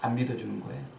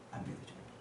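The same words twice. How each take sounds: First: Said in the usual way. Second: Whispered 안 믿어주는 거예요. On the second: Shown as a demonstration. Preacher whispering to the congregation. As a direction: breathe 안 믿어주는 거예요 without voice.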